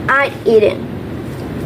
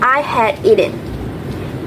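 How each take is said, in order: First: Had is contracted onto I. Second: Had is said as a full word.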